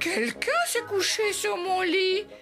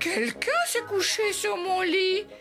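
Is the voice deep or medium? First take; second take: medium; medium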